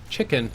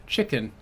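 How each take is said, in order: First: A more settled British-accent "Chicken." ending on a fall; second try at a British-accent "Chicken.". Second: A quick, tentative British-accent "Chicken"; first attempt at a British-accent "Chicken". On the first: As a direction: say "Chicken." with a posh British accent and a falling finish. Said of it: "That's how I would do it". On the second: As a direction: try "Chicken" in a light British accent, not fully committed. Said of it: "Say chicken in a British accent". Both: Shown as a demonstration.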